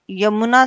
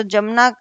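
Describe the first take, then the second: First: यमुना starting with y; correct initial y. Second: जमुना starting with j; wrong initial j. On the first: Teacher corrects to यमुना, with initial y. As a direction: say यमुना as "yamuna". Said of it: "शब्द सही है". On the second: Teacher shows wrong जमुना, with initial j. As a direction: say जमुना as "jamuna". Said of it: "अशुद्ध रूप में आता है". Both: Shown as a demonstration.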